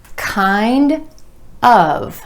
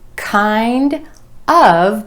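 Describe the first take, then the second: Both takes have the same delivery.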